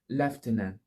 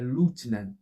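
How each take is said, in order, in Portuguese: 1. Ela é pronunciada com pronúncia do inglês britânico. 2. Ela é pronunciada com pronúncia do inglês americano. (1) "no inglês britânico, a palavra é pronunciada por lieutenant" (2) "o inglês dos Estados Unidos já é totalmente diferente, é lieutenant"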